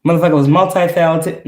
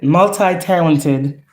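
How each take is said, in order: First: Said in the usual way. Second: "multi-talented" drawn out slowly, syllable by syllable; slow emphasis. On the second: Real, not acted. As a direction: stretch "multi-talented" out to stress it. Repeats word for emphasis.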